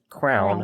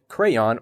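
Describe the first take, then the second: First: The word is squeezed to sound like crown. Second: The word is said fully, like cray-on. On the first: The speaker calls it wrong. "incorrectly as crown" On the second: The speaker calls it right. "correctly pronounce it crayon"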